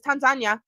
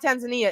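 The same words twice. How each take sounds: First: Tanzania is pronounced the non-American way. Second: Tanzania is pronounced the American way. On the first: The speaker calls it right. "It's Tanzania" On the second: The speaker calls it wrong. "It's not Tanzania. America taught us how to say Tanzania"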